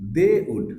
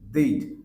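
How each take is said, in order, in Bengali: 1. এটা দুটি পূর্ণ শব্দ হিসেবে বলা হয়। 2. এটা একটি সংকুচিত সিলেবল হিসেবে বলা হয়।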